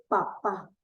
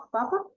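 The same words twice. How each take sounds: First: "papá" with the stress on the last syllable, falling; stress on final pá. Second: "Papa" with stress on the first syllable, rising. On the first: Teacher contrasting father with potato. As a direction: land on the end of "papá". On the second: Teacher showing the class the word for potato. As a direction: say "Papa" like the tuber. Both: Shown as a demonstration. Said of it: "no es lo mismo decir papa a decir papá".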